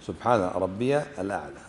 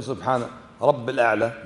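First: Low, ربي ending in a clear -ya before الأعلى; correct pronunciation. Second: رب الأعلى run together as rabb-il, no ya; wrong pronunciation. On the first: Teacher corrects the wording for students, careful pronunciation. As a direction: voice the ya in ربي, set apart from الأعلى. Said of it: "لا". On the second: Teacher warns students off this wording, mispronounced demonstration. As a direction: drop the ya from رب before الأعلى. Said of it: "لا تقول". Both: Shown as a demonstration.

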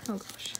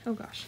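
First: Breathy whisper under the breath; whispered oh gosh. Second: Said in the usual way. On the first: Real, not acted. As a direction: whisper it nervously to yourself. Nervous while prying card out.

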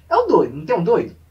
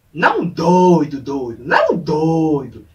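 First: Said in the usual way. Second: DOIDO stretched out slow and loud; emphatic DOIDO. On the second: Shown as a demonstration. Explaining which kind of crazy friend, DOIDO drawn out loudly. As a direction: lean hard and long on "doido".

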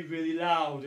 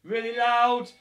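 First: Said in the usual way. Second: Really loud, said loud and punchy; loud call. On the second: Shown as a demonstration. Coach urging kids to count, loud call. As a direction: push the volume up on Really loud. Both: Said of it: "counting really loud".

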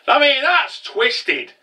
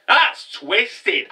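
First: Slow, drawn out and much higher, leaning on "that's"; emphatic. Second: Said in the usual way. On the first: Real, not acted. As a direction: savor "that's twisted" with relish. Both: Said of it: "Twisted, though".

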